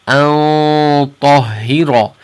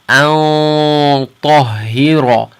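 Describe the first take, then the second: First: The 'an' is said heavy, with a full sound. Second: The same.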